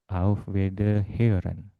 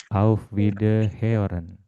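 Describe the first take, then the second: Both takes have the same delivery.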